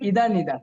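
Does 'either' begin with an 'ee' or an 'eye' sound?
ee. Both words have an 'ee' vowel. This is the American way of saying it. "আমেরিকারা বলে ইদার নিদার"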